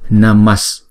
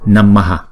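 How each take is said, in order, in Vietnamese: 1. Từ này kết thúc bằng âm s. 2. Từ này kết thúc bằng nguyên âm lặp lại sau h. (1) "chúng ta chuyển cái chữ AH này thành chữ Sr luôn" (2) "Chữ này đứng một mình thì chúng ta đọc là Namaha"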